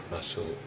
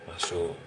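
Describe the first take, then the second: Both takes have the same delivery.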